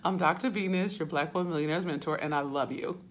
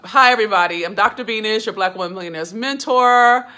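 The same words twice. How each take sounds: First: Softer, lower, faster repeat of the introduction; soft intro. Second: Louder, projected host introduction; bright loud intro. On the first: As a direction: say it gently, almost to yourself. Restarts introduction softly, winding down. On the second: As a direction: announce yourself to the whole room. Loud energetic self-introduction to viewers. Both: Real, not acted.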